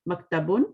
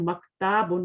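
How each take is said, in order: First: The middle vowel is kept short. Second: The middle vowel is drawn out long. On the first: The speaker calls it right. "एक तो उसको पढ़ना सही है" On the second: The speaker calls it wrong. "मक्ताबुन नहीं पढ़ना"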